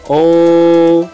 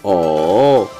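First: The pitch stays high and level. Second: The pitch dips down and comes back up. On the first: "nada pertama yaitu tinggi dan datar" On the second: "nada ketiga diayun"

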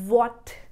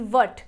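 First: The vowel is an open, rounded 'aw'. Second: The vowel is a short, flat 'uh'. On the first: The speaker calls it right. "आपको मुंह को खोलना पड़ेगा" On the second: The speaker calls it wrong. "ना कि वट"

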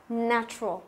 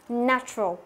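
The two takes are said the same way.

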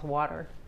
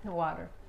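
First: It has an American accent with a D-like T. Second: It has an American accent with a D-like T.

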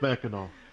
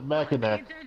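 First: The word ends with an 'aw' sound. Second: The word ends with a 'k' sound. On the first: The speaker calls it right. "There isn't" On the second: The speaker calls it wrong. "people pronounce it Mackinac"

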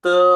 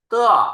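First: It is said with the first tone. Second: It is said with the fourth tone. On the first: "เสียงที่ 1" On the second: "เสียงที่ 4"

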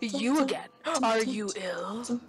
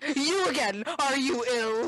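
First: It is said in a quiet, creepy voice. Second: It is said in an ordinary voice.

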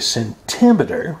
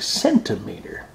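First: The stress is on the second syllable. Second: The stress is on the first syllable. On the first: The speaker calls it wrong. "we would not say centimeter" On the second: The speaker calls it right. "we would say centimeter"

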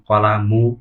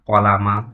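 First: The word ends in the vowel u. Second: The word ends in the vowel a. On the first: "তাহলেও কিন্তু তার উচ্চারণটি ভুল হবে" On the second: "তাহলে তার উচ্চারণটি কিন্তু ভুল হবে"

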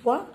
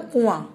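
First: The final vowel is plain, not nasal. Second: The final vowel is nasalized. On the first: "अब यह कुआ" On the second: "चंद्रबिंदु लगाएंगे तो क्या बन जाएगा?"

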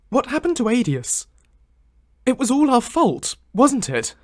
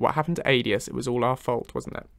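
First: It is said in the put-on Lucian voice. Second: It is said in the speaker's normal voice.

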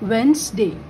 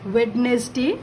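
First: The first d and middle e are dropped. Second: Every letter is sounded, including the first d. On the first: The speaker calls it right. "बोलते time इसको हम लोग पढ़ेंगे वेंसडे" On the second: The speaker calls it wrong. "Spelling लिखते time"

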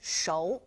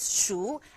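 First: The vowel glides from 'oh' to 'oo'. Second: The vowel is a plain 'oo' sound. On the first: "shou, S-H-O-U"

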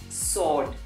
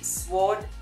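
First: No w sound is heard after the s. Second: A w sound is heard after the s. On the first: The speaker calls it right. "the letter W in this particular word is silent" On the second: The speaker calls it wrong. "we do not say sword"

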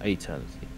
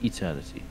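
First: The word begins with an 'ay' sound. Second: The word begins with an 'ee' sound. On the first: The speaker calls it wrong. "Not eternity" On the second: The speaker calls it right. "AE in the UK pronunciation would be pronounced E"

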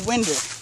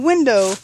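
First: The word ends with an 'er' sound. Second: The word ends with an 'oh' vowel. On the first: "the logic for it is now winder" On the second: "Instead of saying window"

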